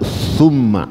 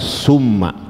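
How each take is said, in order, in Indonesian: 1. Diawali bunyi 'th', lidah di antara gigi. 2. Diawali bunyi 's' desis biasa. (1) "Jadi bacanya innalladzina amanu summa" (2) "bukan summa"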